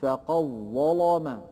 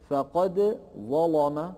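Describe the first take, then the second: First: "فقد ظلم" with the dal merged into doubled ظ; slow "فقد ظلم", qaf straight into a held ظ; after assimilation. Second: "فقد ظلم" with the dal sounded before ظ; slow "فقد ظلم", dal and ظ kept apart; before assimilation. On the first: ("فقد ظلم" بإدغام الدال في الظاء) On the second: ("فقد ظلم" بإظهار الدال) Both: Shown as a demonstration. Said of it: "تصبح بعد الإدغام".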